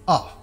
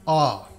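First: The vowel is said short and quick. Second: The vowel is drawn out and long. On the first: "a very quick pronounced sound" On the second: "a delayed pronounced, a bit longer sound"

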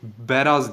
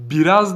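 First: The first vowel sounds like 'a'. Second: The first vowel sounds like 'i'. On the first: It means an open field. "Bu fetha ile okunması, yani beraz şeklinde okunması daha meşhurdur" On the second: It means relieving oneself. "Biri biraz diye"

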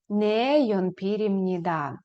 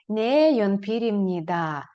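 The two takes are said the same way.

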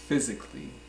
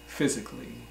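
First: The 'a' before the final 'lly' is dropped. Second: The same.

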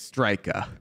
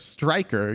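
First: It is said in a Staten Island accent. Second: It is said in a neutral accent. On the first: "if you're from like Staten Island, you say it like this" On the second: "instead of striker"

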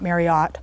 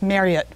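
First: The name is said in its rhyming form. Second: The name is said in its non-rhyming form. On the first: This form came from an advertising mistake. The speaker calls it wrong. "not Marriott. That was a error they made a few years ago in doing a commercial and made it rhyme" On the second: This is the form the owner of the name prefers. The speaker calls it right. "it's Marriott"

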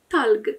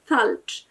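First: The word ends with a hard g sound. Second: The word ends with a soft j sound. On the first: This is the Egyptian dialect form. "Egipcjanie powiedzą po prostu talg" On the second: This is the standard Arabic form. "w standardzie języka arabskiego brzmi talcz"

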